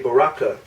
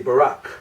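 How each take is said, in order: First: The word ends with an extra vowel sound. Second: The word ends with a consonant sound. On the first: The speaker calls it wrong. "we don't say Baraka" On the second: The speaker calls it right. "We say Barak because that's a final"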